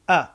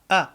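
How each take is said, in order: First: The vowel starts with a gentle, relaxed onset. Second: The vowel starts with a gentle, relaxed onset.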